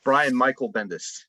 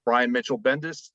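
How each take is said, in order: First: Brian Michael Bendis, said slowly as MY-kul; slow, careful "Michael" with a k sound; "Michael" corrected, the name spaced out. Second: Brian Mitchell Bendis, middle name said MITCH-ul; "Mitchell" with a ch sound in the middle; Michael misread as Mitchell. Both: Real, not acted.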